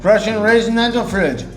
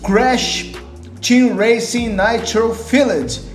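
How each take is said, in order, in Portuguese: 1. As palavras são arrastadas, com má articulação. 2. As palavras são articuladas com clareza e distintamente.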